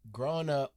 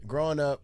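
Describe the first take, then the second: First: Odd voice. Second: Said in the usual way. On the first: Real, not acted. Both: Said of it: "why the hell am I talking like that".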